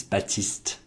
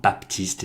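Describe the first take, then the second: First: Baptiste with the p left silent. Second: Baptiste with the p pronounced; p sounded. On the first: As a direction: say Baptiste as "Ba-teest", French style. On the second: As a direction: say Baptiste as "Bap-teest", sounding the p. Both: Shown as a demonstration. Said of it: "they don't pronounce all the letters".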